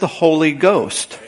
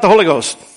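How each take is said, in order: First: The two words are said separately. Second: The two words are run together as one. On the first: The speaker calls it right. "the baptism of the Holy Ghost is two words" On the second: The speaker calls it wrong. "It's not one"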